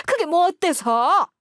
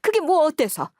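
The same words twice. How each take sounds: First: Higher, slow, on the edge of tears; tearful repeat. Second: Higher, louder defiant challenge; defiant retort. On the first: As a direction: repeat it slowly, voice welling up. (울먹이며 천천히) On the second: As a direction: toss it back at her, raised. (따지듯 높여서) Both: Acted. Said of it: "하면서 시어머니께서 눈물바람을 하시더군요".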